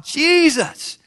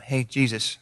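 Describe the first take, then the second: First: High, drawn-out imitated yell; crying out. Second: Low, soft half-hearted hail; mock a timid, offhand call to someone; casual mumbled greeting. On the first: Blind men crying out to Jesus passing by, high drawn-out yell. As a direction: call out as if across a crowd. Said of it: "they're crying out". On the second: Blind man barely trying to get Jesus' attention, casual and soft. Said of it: "they didn't just go".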